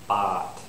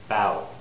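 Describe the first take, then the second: First: The vowel stays plain with no w glide. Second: The vowel glides toward a w sound. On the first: The speaker calls it wrong. "That one was wrong. I had no W" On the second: The speaker calls it right. "That one was right. ... I pronounced the W"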